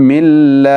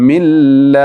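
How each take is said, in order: Both takes have the same delivery.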